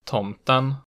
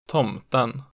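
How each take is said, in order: First: Tomten falling on the first syllable, rising on the second; type two B accent one. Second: Tomten peaking at once, dropping sharply, rising late; type two B accent two. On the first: Teacher showing regional tones, Tomten with falling-rising accent one. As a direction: dip Tomten, then peak on the ending. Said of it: "falls in the stressed syllable and then rises". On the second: Teacher showing regional tones, tomten with double-peak accent two. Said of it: "it immediately peaks and then drops sharply". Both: Shown as a demonstration.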